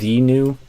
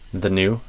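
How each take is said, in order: First: The vowel in 'the' is a full 'ee'. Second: The vowel in 'the' is a reduced 'uh'. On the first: The speaker calls it wrong. "instead of the new" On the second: The speaker calls it right. "I'd usually do the"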